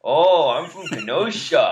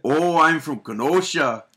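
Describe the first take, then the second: First: Slow, imitated Kenosha accent; copied Kenosha accent. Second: Slow, exaggerated Kenosha accent. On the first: Co-host copies him in the voice-off, imitated Kenosha accent. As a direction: echo your co-host's drawn-out Kenosha accent. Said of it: "you're just saying what I'm saying". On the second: Shown as a demonstration. Host demonstrates in a voice-off, hammed-up Kenosha accent. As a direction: lay on a broad Kenosha accent, drawn out. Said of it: "Do a Kenosha accent".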